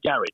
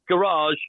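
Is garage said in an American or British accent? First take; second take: British; American. First: It is said the British way. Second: It is said the American way.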